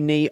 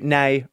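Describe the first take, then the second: First: The vowel sounds like the one in 'see'. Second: The vowel sounds like the one in 'say'. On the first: "I've always said knee" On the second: "I'm now going to commit to nay"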